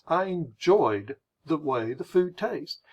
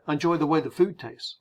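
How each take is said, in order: First: Slow, drawn-out "enjoyed"; deliberate British-style emphasis. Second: Quick, casual American run-through; brisk, unfussy delivery; speeding through. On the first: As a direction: pause and linger over the phrase. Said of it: "So they are slowing down". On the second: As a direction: run the phrase together lightly. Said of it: "speeding through the phrase". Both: Shown as a demonstration.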